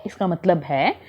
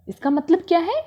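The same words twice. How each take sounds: First: Said in the usual way. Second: Teacher's prompting question, voice rising at the end; asking question. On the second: Shown as a demonstration. Teacher quizzes students, rising question. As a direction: lift है into a question to the class.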